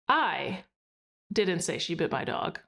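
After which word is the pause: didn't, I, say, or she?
I. There is a pause after the word I. "pausing after I"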